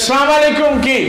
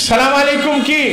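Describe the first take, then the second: Both takes have the same delivery.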